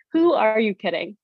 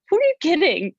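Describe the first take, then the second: First: Said in the usual way. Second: High incredulous jab at herself, Australian meal prep. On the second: Real, not acted. Mocking her past self over salads, high incredulous. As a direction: scoff high at your own salad plan.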